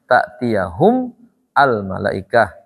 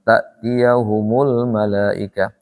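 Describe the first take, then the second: First: The words are said apart with no linking vowel. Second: The words run together with a linking u vowel.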